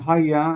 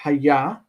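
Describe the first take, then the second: First: The stress is on the first syllable. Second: The stress is on the second syllable. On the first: The word is made to stand out more. "Notice the Haya has a shifted accent" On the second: This is the word's usual form. "Normally we would expect Haya"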